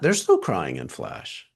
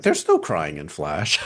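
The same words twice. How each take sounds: First: Low and slow, each word weighed; firm slow rule. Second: Joking movie quote. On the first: Shown as a demonstration. Restating the rule to the class, low and deliberate. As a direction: lay down the rule slowly and low. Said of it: "And that's not true". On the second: Retold or imitated. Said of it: "I'm like".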